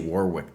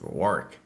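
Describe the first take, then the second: First: Warwick is said with an American pronunciation. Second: Warwick is said with a British pronunciation. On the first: The speaker calls it wrong. "if I say Warwick, they'll be like, "No, boss, that's not the way you say it."" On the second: The speaker calls it right. "It's Warwick"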